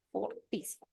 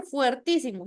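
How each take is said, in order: First: Fortísimo with a plain "for", no diphthong; correct form shown. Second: Fuertísimo with the diphthong "fuer", marked as the wrong form; wrong form shown. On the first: Teacher gives the class the correct form fortísimo. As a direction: say fortísimo with "fo", not "fue". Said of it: "se dice". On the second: Teacher shows the class the wrong form fuertísimo. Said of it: "no se dice". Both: Shown as a demonstration.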